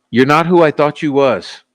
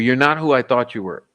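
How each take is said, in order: First: Louder, deliberate "you was" to finish; emphatic rewording. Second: Said in the usual way. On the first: Real, not acted. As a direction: restate it firmly, landing on "you was". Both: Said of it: "How do you say that?".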